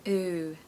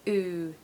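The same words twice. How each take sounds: First: The letters are said with an 'ooh' vowel. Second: The letters are said with an 'ooh' vowel.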